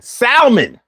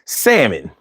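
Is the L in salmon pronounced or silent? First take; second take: pronounced; silent. First: The L in the word is pronounced. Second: The L in the word is silent.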